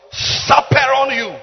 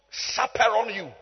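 First: "Chaperone" stretched slowly, high and loud; emphatic repeat. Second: Said in the usual way. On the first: Real, not acted. Preacher answering his own question, "Chaperone" loud and drawn out. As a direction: draw out "Chaperone" with loud, raised pitch.

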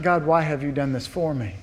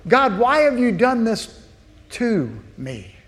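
First: Softer, humbled thanks; grateful wonder. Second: Higher, aggrieved why-me; complaining to God. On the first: Believer thanking God in hardship, soft humble wonder. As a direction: marvel quietly at the gift. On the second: Believer accusing God in hardship, aggrieved complaint. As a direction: protest as if wronged. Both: Shown as a demonstration.

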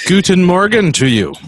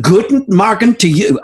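First: Mock German accent greeting; hint of a German accent. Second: Self-admitted bad German accent; half-hearted German accent; German accent attempt. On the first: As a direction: say it like a cheery German, lightly. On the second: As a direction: echo the greeting in a weak German accent. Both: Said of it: "I can't do a good German accent".

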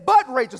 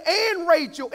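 First: But punched loud, then falling; loud, decisive stress on "But". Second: And punched high and loud; stress on and. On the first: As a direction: hit "But" hard as a contrast. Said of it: "but then it says". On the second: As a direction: lean hard on "and", raised pitch. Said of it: "It could have said". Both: Shown as a demonstration.

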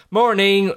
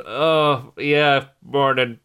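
First: Put-on higher-pitched child's morning call; wake-up greeting. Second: Slow, reluctant morning reply; mock half-asleep. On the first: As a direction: imitate a child announcing the morning. Daughter bursts in at seven. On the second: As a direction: act barely awake, answering a child. Retold half-asleep parent answering.

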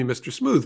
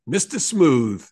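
First: Said in the usual way. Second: Slow, booming Brooklyn big-man voice; Kenny McCabe. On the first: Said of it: "he called me Mister Smooth because". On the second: Retold or imitated. Legendary law enforcement friend teasing me, imitated booming Brooklyn voice. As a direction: boom it out slowly, imitating a New York accent. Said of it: "he would boom at me".

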